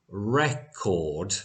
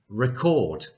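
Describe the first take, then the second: First: "record" as REC-ord, slow and stressed at the front; longer first vowel. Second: "record" as ri-CORD, stress on the end; shorter E vowel. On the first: Teacher lets learners hear the first word, "record" with long stressed REC. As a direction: draw out the first syllable of "record". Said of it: "we have a longer vowel sound". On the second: Teacher lets learners hear the second word, "record" with short E. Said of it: "a shorter vowel sound on the E". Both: Shown as a demonstration.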